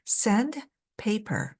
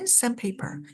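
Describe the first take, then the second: First: The middle d sound is clearly pronounced. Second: The middle d sound is dropped. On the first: The speaker calls it wrong. "sand paper 라기보다는" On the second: The speaker calls it right. "중간에 있는 자음을 살짝 없는 듯 사라져요"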